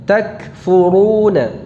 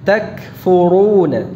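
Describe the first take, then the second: The two takes are said the same way.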